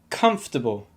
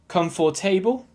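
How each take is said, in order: First: Only the first syllable is stressed. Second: Every syllable gets equal stress. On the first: The speaker calls it right. "give the stress to the first syllable and nothing or very little to the second syllable" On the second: The speaker calls it wrong. "you're giving the same amount of stress to each syllable"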